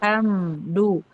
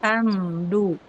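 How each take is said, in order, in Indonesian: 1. Bunyi m diucapkan penuh dan jelas. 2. Bunyi m diucapkan penuh dan jelas.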